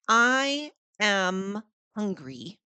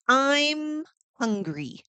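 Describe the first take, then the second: First: Both words 'I am' are said in full. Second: 'I am' is shortened to one syllable.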